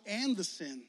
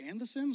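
First: Falling and the sin; and the sin said as a plain statement; plain reading. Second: And the sin? rising on sin; sin stressed and rising, like a surprised question; questioning rise. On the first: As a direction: read and the sin flatly, falling at the end. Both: Shown as a demonstration. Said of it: "So it's".

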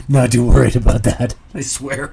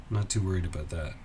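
First: Much louder, protesting too much; mock insistent denial. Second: Said in the usual way. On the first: Insisting to the audience that I'm not worried, loud mock protest.

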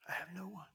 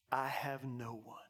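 First: Near-whispered, soft repetition; hushed confession. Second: Low, understated admission; subdued confession. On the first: Paralytic confiding helplessness to Jesus, hushed confession. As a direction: let it sink to a whisper. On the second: Paralytic of thirty-eight years telling Jesus, subdued confession. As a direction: admit it with a lowered voice. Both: Retold or imitated.

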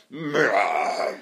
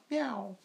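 First: Hoarse sick meow imitation; imitating a cat with a cold. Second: High soft meow imitation; imitating a cat's usual meow; normal cat meow. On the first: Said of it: "this morning was like". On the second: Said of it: "like that".

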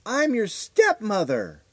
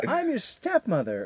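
First: Slow, drawn-out, higher creepy announcement; eerie stepmother. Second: Slow, much higher creepy repeat; eerie stepmother. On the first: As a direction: stretch it out like a strange visitor. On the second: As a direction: say it slower and higher, insisting. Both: Retold or imitated. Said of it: "she goes".

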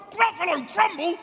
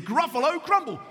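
First: High-pitched storybook alarm; alarmed Gruffalo. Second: Said in the usual way. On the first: A narrator's reading. Gruffalo repeating the mouse's threat, high mock alarm. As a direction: echo it back high, in mock horror. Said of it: "the Gruffalo said".

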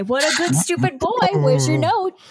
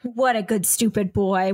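First: Put-on high baby talk to a dog. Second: Said in the usual way. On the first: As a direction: coo at the dog like a pet owner. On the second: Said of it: "repeated in dog voice".

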